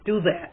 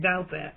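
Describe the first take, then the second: First: The first syllable sounds like 'do'. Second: The first syllable sounds like 'doubt'. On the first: "I want to pronounce it do that" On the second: "everyone else that I hear speak of him saying doubt that"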